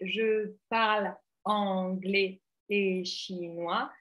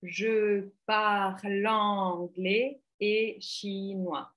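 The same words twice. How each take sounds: First: The consonant is cut off from the next word. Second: The consonant runs smoothly into the next word. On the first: The speaker calls it wrong. "la phrase produite était" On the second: The speaker calls it right. "on aurait attendu"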